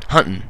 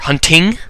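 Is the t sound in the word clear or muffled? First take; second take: muffled; clear. First: The t sound is muffled and unclear. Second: The t sound is pronounced clearly. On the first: This is the speaker's Utah accent. "I naturally say mountain and hunting. You know, kind of a little less clear on that" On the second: This is the typical American way. "Most Americans will probably say like mountain or hunting"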